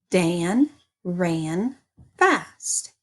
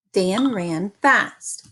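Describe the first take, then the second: First: Slow, even model sentence; plain statement. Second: Said in the usual way. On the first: Shown as a demonstration. Teacher modelling a statement for the class, slow and even. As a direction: read it out slowly and evenly, just telling. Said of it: "Listen to the sentence". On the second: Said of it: "I'm not saying it with feeling".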